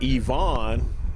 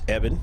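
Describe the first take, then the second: First: The name is pronounced like Yvonne. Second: The name is pronounced like Evan. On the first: The speaker calls it wrong. "if we pronounce it Yvonne in the first half, that is incorrect" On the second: The speaker calls it right. "It's Evan"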